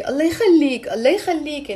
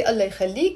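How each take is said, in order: First: Pleading, with rising and falling emphasis; begging. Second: Said in the usual way. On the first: Shown as a demonstration. Teacher showing how we beg someone, mild pleading. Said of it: "when we're begging someone in a way". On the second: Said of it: "it's different".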